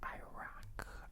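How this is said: It is said with an American English pronunciation. The speaker calls it wrong. "when I listen to like Americans talking, they're like Iraq"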